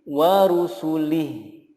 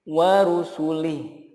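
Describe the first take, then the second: Both takes have the same delivery.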